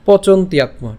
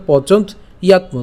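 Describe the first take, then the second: First: "পচন্ত ইয়াত্ম" run together as pochontyatmo; joined pronunciation. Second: "পচন্ত ইয়াত্ম" broken after pochont; split pronunciation. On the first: Teacher says always pronounce together, joined "পচন্ত ইয়াত্ম". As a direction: glide from t straight into ya in "পচন্ত ইয়াত্ম". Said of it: "উচ্চারণ করার সময় একসাথেই করবো". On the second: Teacher reads the broken-up form, split "পচন্ত ইয়াত্ম". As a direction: stop on the t of "পচন্ত ইয়াত্ম", then yatmo. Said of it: "আমরা এটা ভেঙে দিয়েছি". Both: Shown as a demonstration.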